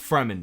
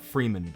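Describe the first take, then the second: First: The first syllable sounds like 'frem'. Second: The first syllable sounds like 'free'. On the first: The speaker calls it right. "It's Fremen" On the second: The speaker calls it wrong. "not Freeman"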